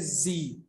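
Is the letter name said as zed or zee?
zee. It is said the American way, as zee.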